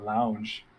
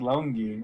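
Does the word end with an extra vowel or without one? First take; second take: without one; extra vowel. First: The word ends on a plain j sound. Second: The word ends with an extra ee vowel. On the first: The speaker calls it wrong. "why he's pronouncing it lounge" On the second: The speaker calls it right. "It's pronounced longi"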